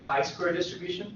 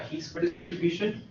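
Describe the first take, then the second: First: Chi is said the American fraternity way. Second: Chi is said the modern Greek way. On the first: "If you're a fraternity Greek, then you would call it a chi square distribution" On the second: "if you're Greek, you probably call it a he square distribution"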